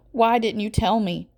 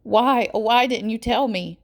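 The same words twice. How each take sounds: First: Rising distress. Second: Louder, higher near-wail; pleading wail with anger and pain; almost a wail. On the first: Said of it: "her voice is getting louder". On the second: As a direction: let it break into a wail. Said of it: "It's almost a wail". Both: A narrator's reading.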